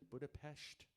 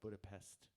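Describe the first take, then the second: First: The final consonant is a 'sh' sound. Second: The final consonant is an 's' sound. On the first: "S on its own is a sh sound, which is why people pronounce it Budapest" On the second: "instead of Budapest"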